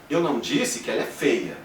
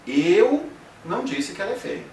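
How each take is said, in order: First: The stress falls on the word feia. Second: The stress falls on the word eu. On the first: She was called something other than ugly. "então você disse que ela é alguma outra coisa" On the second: Someone else said it. "Você pensa então, alguém disse"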